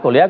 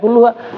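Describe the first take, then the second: First: The vowel after kull is i. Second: The vowel after kull is u. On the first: The speaker calls it wrong. "Lalu kulliha juga salah" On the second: The speaker calls it right. "Yang betul ya kulluha"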